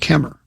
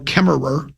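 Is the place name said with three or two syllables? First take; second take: two; three. First: The name is shortened to two syllables. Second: The name is said in full, three syllables. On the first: The speaker is from that area. The speaker calls it right. "It was just Kemmer" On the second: The speaker is not from that area. The speaker calls it wrong. "they wouldn't go Kemmerer"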